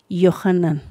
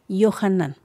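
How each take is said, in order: No difference in how they are said.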